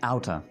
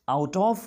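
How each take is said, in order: First: The two words are blended into one short word. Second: The two words are said fully and separately. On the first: "आप pronounce करते हैं आउटर" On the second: "आउट ऑफ को"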